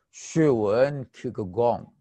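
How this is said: The name is said with a Danish pronunciation. "dalam bahasa Denmarknya dibacanya"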